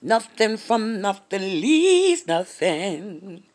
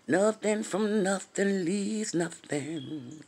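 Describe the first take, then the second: First: Each word stretched slowly; slow proverb recital; slow, drawn-out saying. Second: Slow saying. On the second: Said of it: "You know that thing say". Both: Retold or imitated.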